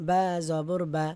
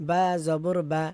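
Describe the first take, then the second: The two takes are said the same way.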